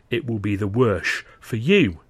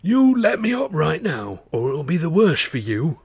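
First: Slow, deliberate mocking echo of his threat; a cold, slow, mocking menace; threat thrown back. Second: A strained, bloodied thug's menace; menacing threat. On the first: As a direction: turn his own words on him. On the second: Acted. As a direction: try to sound dangerous through a bloody nose. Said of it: "as menacingly as he could manage".

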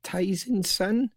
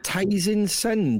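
First: Questioning slowly. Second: Reading slowly. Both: Shown as a demonstration. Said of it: "Julie Penn has said".

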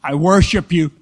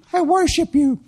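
First: Loud mock invocation; mock worship. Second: Very high mock-girl chant; girl's repeat. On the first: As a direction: lead the mock prayer in a loud voice. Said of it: "Now say this with me". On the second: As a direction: parrot a mock prayer in a high girlish voice. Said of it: "And she said".

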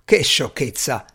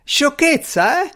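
First: Brisk dismissal in usual pitch; dismissive exclamation. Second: Indignant cry. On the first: Strange rejecting the servant's tale, dismissive. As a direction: wave it away in an ordinary voice. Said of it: "esclamò Strange". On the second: Servant retorting to Strange's dismissal, indignant cry. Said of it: "gridò l'uomo". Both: A narrator's reading.

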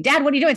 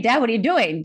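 First: Higher, louder panicked cry of Dad; the cry grows into a half-scream; retold screaming. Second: Retold screaming. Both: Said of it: "I start screaming".

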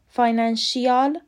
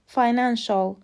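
First: فاینانشیال with an extra "ee", fy-nan-shee-AL; wrong pronunciation. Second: فاینانشال said as fy-NAN-shul, ending in one short "shul"; correct pronunciation. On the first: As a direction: split the ending of فاینانشیال into "shi-yal". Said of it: "غلطه". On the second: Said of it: "تلفظ درست". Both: Shown as a demonstration.

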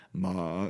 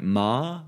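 First: "ma" drawn out with the pitch sliding down; falling tone. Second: "ma" with the pitch sliding upward; rising tone. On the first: Showing the Vietnamese word for ghost, falling tone on "ma". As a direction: let "ma" sink slowly downward. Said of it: "going down". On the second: Showing the Vietnamese word for mother, rising tone on "ma". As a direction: say "ma" lifting like a question. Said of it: "going up". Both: Shown as a demonstration.

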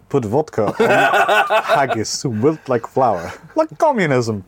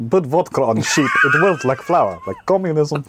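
First: Comically bad Scottish accent. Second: Higher, hammed-up Welsh accent. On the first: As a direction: put on a hammed-up Scottish accent, breaking into laughter. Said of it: "you hear my Scottish accent?". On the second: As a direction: do a comically bad Welsh accent. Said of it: "Do you wanna hear my Welsh accent?". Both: Shown as a demonstration.

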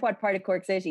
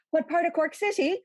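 First: Said in the usual way. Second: Put-on sing-song Cork accent, the tune jumping up high. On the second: Friend imitating Darina's Cork accent, sing-song Cork lilt. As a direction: mimic a Cork City lilt, high and rising. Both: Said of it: "you went".

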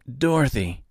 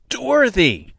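First: Said in the usual way. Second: High, loud yell of her name. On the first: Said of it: "said Mister". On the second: Acted. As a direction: shout her name to finally get through. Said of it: "Mister finally yelled".

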